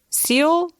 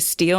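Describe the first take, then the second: First: There is no t sound after the s. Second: There is a t sound after the s. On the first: The speaker calls it right. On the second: The speaker calls it wrong.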